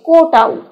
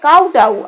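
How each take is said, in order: First: The first syllable sounds like koh. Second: The first syllable rhymes with cow. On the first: "আর নিচেরটা হচ্ছে কোটাউ" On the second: "এই উপরের উচ্চারণটা হবে কাউটাউ"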